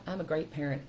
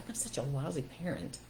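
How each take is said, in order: First: Soft, steady reassurance to yourself; calm, kind inner voice; encouraging self-talk. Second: Soft, deflated mutter of self-blame; quiet, beaten-down inner voice; defeated self-talk. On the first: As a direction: talk yourself back up, gently. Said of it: "You can go, "No, you know what?". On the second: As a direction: say it like you've given up on yourself. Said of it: "if you don't think you're a good parent, you go". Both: Shown as a demonstration.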